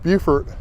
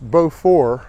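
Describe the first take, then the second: First: The first syllable sounds like the start of beautiful. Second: The first syllable sounds like plain beau. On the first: This is how the South Carolina town says it. "South Carolina is pronounced Beaufort" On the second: This is how it would be said in French. "in French uh, it'd be pronounced Beaufort"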